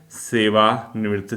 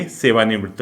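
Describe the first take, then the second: First: "सेवानिवृत्त" drawn out slowly in parts; slow dictation. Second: Said in the usual way. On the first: Shown as a demonstration. Teacher repeating a term for students to write, slow dictation. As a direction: dictate "सेवानिवृत्त" slowly, separating "सेवा" from "निवृत्त".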